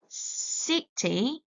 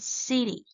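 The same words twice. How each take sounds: First: The middle consonant is a clear t. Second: The middle consonant is a soft d-like sound.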